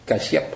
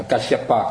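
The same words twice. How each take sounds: First: Kasyap with the final pa dropped, ending on a rising p; Kasyap, cut off after the p with a small rise; clipped ending. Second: Kasyapa, slow, every syllable said, final pa clearly voiced; full Sanskrit form. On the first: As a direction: say Kasyap short, stopping at the p. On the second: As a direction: spell out Kasyapa slowly, ending on pa. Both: Shown as a demonstration. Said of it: "cái chữ pa sau cùng người ta không đọc".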